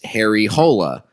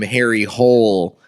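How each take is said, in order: First: The surname has two syllables, ending in a vowel. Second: The surname has one syllable, like the word hole. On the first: The speaker calls it right. "the character's name in the novel is" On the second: The speaker calls it wrong. "they did not get the pronunciation correct"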